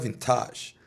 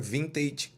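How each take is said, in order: First: It is said with a French pronunciation. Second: It is said with an English pronunciation. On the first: This is how French speakers say it. "O francês fala vintage" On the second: This is the word's original pronunciation. "Talvez o mais correto, dentro da língua natural da palavra"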